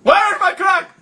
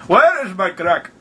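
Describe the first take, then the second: First: High-pitched, urgent demand in a put-on accent; mock-frantic, pitched way up. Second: Slower, lower repeat in a put-on accent; deliberate, drawn-out mock demand; slowed repeat. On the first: Demanding on a prank call. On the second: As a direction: say it slowly for someone who missed it. Repeats after listener says sorry.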